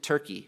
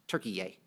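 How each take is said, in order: First: The name is said with two syllables. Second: The name is said with three syllables.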